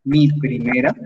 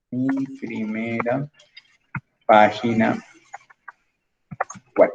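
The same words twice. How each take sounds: First: Said in the usual way. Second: Slow dictation. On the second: Shown as a demonstration. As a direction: say it slowly while you type it out. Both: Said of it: "vamos a decirle acá".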